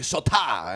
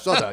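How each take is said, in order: First: The middle t is crisply enunciated. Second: The middle t is soft, like a d. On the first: The speaker calls it wrong. "They say Sota, and I say no" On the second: The speaker calls it right. "it's Soda. Soda. ... there is no enunciation"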